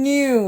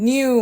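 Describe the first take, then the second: The two takes are said the same way.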